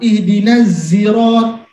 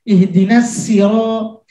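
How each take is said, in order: First: It is said with a buzzing z sound. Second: It is said with a plain, light s sound. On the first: "hanya bisanya zai" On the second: "Akhirnya sin"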